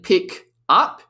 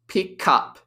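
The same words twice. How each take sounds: First: The two words are said separately. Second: The k sound links into the next word. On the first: "instead of saying" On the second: "the consonant sound links across"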